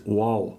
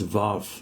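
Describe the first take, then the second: First: The name begins with a W sound. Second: The name begins with a V sound. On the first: This is the original form. The speaker calls it right. "It's Wow. Okay, so so so so that is a deeper sound" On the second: This is the popular form. The speaker calls it wrong. "mispronounced popularly as Vav"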